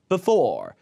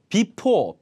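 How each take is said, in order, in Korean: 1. 첫 모음은 약한 schwa로 줄어들어요. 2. 첫 모음은 완전하고 분명한 모음이에요. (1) "약간 be보다 약간 부에 더 가깝게" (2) "before가 아니라"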